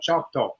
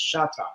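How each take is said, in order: First: The name begins with a 'ch' sound. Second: The name begins with a 'sh' sound. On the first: The speaker calls it wrong. "that's not how our name is pronounced" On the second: The speaker calls it right. "It's Shata"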